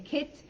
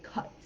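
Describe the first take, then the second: First: "kit" with a short American i. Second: "kit" with the vowel centred, like "cut"; New Zealand "kit". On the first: Teacher shows learners the vowel, American "kit". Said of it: "in American English, we would say". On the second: Teacher imitates New Zealand vowels, "kit" as "cut". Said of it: "in New Zealand, it might sound". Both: Shown as a demonstration.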